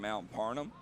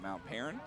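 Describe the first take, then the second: First: The name sounds like Parnham. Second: The name sounds like Perrin. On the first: The speaker calls it wrong. "If I pronounce it wrong, please correct me" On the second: The speaker calls it right. "if I hear it, I can say it"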